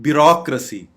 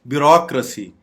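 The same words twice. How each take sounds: Both takes have the same delivery.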